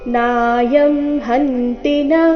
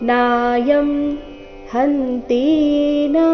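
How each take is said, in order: First: The vowel in 'ti' is kept short. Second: The vowel in 'ti' is drawn out long. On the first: The speaker calls it right. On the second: The speaker calls it wrong.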